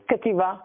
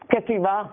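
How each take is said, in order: The two takes are said the same way.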